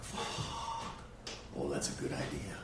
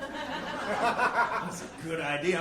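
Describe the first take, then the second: First: Low, scheming inner voice; sly realization. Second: Slow, laughing re-say of "That's a good idea."; laughing repeat. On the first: Retold or imitated. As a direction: drop into a hushed plotting tone. Realizing he can fake ADHD. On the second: Real, not acted. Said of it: "repeats the line laughing".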